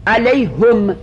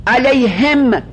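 First: علیهم said as "alayhum", with a u sound on the h; damma on the h. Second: علیهم said as "alayhim", with an i sound on the h; kasra on the h. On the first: Teacher showing students the damma reading, clearly enunciated. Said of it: "علیهم به ضمها". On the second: Teacher showing students the kasra reading, clearly enunciated. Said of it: "علیهم به کسرها". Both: Shown as a demonstration.

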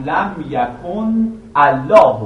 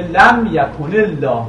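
First: Slow "لم یکن الله" split as yakun, Allah; separated pronunciation. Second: Slow "لم یکن الله" linked as yakunil-lah; joined pronunciation. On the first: Teacher showing the form before linking, separated "لم یکن الله". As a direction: keep a full ن, then start "الله" afresh with its "a". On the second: Teacher showing the dropped hamza, linked "لم یکن الله". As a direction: link the ن straight into the ل in "لم یکن الله". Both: Shown as a demonstration. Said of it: "منتها وقتی متصلش میکنید".

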